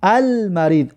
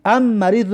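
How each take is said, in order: First: "المریض" with a clearly sounded L before the M; L pronounced. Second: "ام مریض" as am-marid, L merged into a doubled M; L dropped. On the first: Teacher showing students a moon letter, L pronounced in "المریض". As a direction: say "المریض" as al-marid, keeping the L. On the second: Teacher showing the form not used, L dropped in "ام مریض". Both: Shown as a demonstration. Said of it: "برای همین خاطر لام خوندیم".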